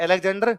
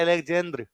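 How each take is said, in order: First: अलेक्जेंडर with a retroflex ड and full -डर; Indian Alexander. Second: अलेक्जेंद्र with a dental द्र and no डर; Russian Alexander. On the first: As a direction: ask अलेक्जेंडर the Hindi way, rising. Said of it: "तो कंगना रनावत कहती है". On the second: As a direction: end अलेक्जेंद्र on a crisp dental दr. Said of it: "कहता है". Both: Retold or imitated.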